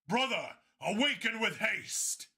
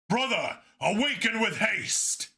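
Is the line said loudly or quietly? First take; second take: quietly; loudly. First: It is said quietly. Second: It is said loudly.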